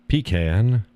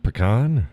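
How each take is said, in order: First: "pecan" as PEE-can, rising; "pecan" PEE-kan with a questioning lift; pronunciation demo. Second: "pecan" as puh-KAHN; "pecan" puh-KAHN, falling; pronunciation demo. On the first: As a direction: say "pecan" with long ee and flat a. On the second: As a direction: say "pecan" with a schwa then KAHN. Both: Shown as a demonstration. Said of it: "do you say".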